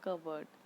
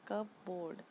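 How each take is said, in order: First: It is said as one word, 'cubberd'. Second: It is said as two separate parts, 'cup board'. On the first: The speaker calls it right. "पी इसमें silent होता है, तो हम इसे बोलते हैं कबर्ड" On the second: The speaker calls it wrong. "अलग अलग करके पढ़ेंगे तो ये होता है कब बोर्ड"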